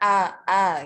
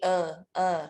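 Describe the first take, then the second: First: The vowel is said with the mouth wide open. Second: The vowel is said with the mouth less open. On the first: The speaker calls it right. "Membukanya misal a a gitu ya" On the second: The speaker calls it wrong. "kurang terbuka"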